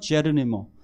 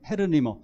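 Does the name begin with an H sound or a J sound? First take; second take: J sound; H sound. First: The name begins with a J sound. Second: The name begins with an H sound. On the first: "영어 발음으로는 제르니모" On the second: "스페인어식 발음으로 다 헤르니모라고"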